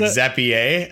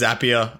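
First: It is said in a French-sounding way. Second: It starts with the sound of 'zap'. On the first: The speaker calls it wrong. "Is it French now?" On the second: The speaker calls it right. "because they're zaps"

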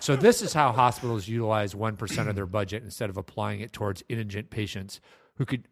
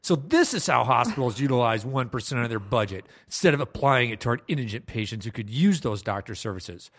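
First: It is read in a plain, neutral tone. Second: It is read with an indignant, snippy attitude.

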